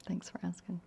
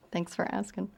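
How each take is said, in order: First: A real unvoiced whisper of thanks; whispered, almost to herself. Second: Said in the usual way. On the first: Real, not acted. Closing thanks to questioner.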